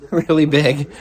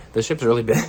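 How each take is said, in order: First: Really big said through a laugh. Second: Said in the usual way. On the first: Real, not acted. Repeats phrase with laugh.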